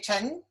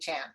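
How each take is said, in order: First: The name has a Mandarin tone and vowel. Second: The name has an American English vowel. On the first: "in Mandarin we say Chen" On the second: "in America we say Chan"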